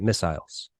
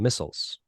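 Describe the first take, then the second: First: It has an English pronunciation. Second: It has an American pronunciation.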